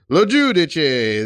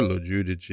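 First: It sounds pleased and enthusiastic. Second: It sounds disappointed and let down.

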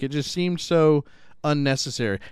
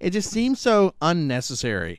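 First: It is read in the speaker's normal voice. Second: It is read in a put-on imitating voice.

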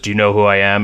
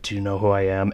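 First: It sounds aggressive and confrontational. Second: It sounds uncomfortable and ashamed.

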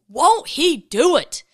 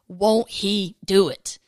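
First: It is said with playful sass. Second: It is said plainly, without sass.

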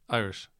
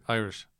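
Both takes have the same delivery.

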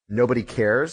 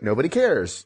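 First: It is said in a sad tone. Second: It is said in an excited tone.

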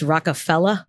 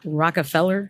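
First: The name ends in an open 'ah' sound. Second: The name ends in a hard 'r' sound. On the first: It names the record label. "he spells it F E L L A" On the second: It names the family. "Watch out for that hard R"

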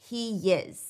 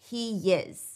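First: A Y glide links the two words. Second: A Y glide links the two words.

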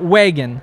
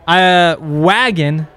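First: The first vowel uses the avoided pronunciation. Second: The first vowel uses the adopted pronunciation. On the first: The speaker calls it wrong. "not wagon" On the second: The speaker calls it right. "Wagon, not wagon"

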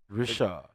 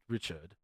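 First: The final D is left silent. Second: The final D is clearly sounded. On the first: The speaker calls it right. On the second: The speaker calls it wrong.

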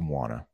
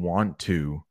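First: The two words blend into one reduced word. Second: Both words are said fully and separately. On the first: "we often change it to wanna" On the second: "Instead of saying want to"

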